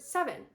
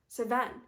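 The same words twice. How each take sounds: First: The word is pronounced in the usual way. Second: The word is pronounced in an unfamiliar way. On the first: The speaker calls it right. "That sounds completely normal" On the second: The speaker calls it wrong. "that sounds completely off"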